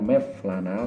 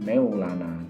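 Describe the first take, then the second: First: The middle consonant is a v sound. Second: The middle consonant is a w sound. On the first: The speaker calls it wrong. "bukan Mevlana" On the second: The speaker calls it right. "tetapi Maulana"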